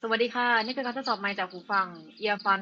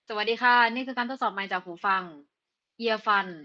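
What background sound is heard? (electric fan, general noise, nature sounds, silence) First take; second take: nature sounds; silence. First: The voice is heard over natural outdoor sounds. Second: The voice is heard with no background noise. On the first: "กับเสียงรบกวนแบบธรรมชาติ" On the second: "ในที่ที่ไม่มีเสียงรบกวน"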